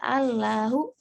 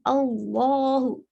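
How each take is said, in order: First: The 'l' is light, with a clear 'la' vowel. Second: The 'l' is heavy, with a dark 'lo' vowel. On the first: This follows the usual Arabic reading rule. "harusnya Allahu" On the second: This reading is unique to this one word. "bukan Allahu"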